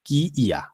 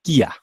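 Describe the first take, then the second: First: কি ইয়া as two distinct sounds; separate pronunciation. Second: কিয়া as one short joined word; merged pronunciation. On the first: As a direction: give ইয়া its own full ই after কি. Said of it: "কি আলাদা উচ্চারণ হবে". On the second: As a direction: fold the ই into কি to make কিয়া. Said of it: "এটার উচ্চারণ হবে যে". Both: Shown as a demonstration.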